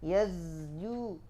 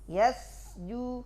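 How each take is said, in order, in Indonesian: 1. Konsonan tengahnya bergetar seperti z. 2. Konsonan tengahnya adalah s yang mendesis, tak bersuara.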